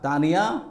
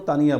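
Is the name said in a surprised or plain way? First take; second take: surprised; plain. First: The name is said with exclamatory surprise. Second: The name is said in a plain, flat way.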